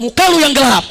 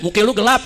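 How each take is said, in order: First: Louder imitated coffee-stall comeback; mock retort. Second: Said in the usual way. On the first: Friend answering back at the coffee stall, loud mock retort. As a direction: throw it back forcefully at a mate. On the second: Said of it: "temannya bilang".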